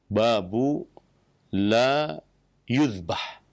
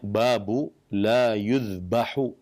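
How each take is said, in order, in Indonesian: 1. Kata terakhir berakhir tanpa vokal di akhir. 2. Kata terakhir berakhir dengan vokal 'u' di akhir. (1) "di sini bisa bermaksud larangan" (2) "Maka berarti dibacanya babu la yuzbahu"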